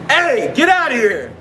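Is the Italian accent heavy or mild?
mild. It has a milder Italian-American accent. The speaker calls it right. "Yeah, it's better"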